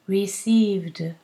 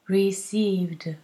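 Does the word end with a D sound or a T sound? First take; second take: D; D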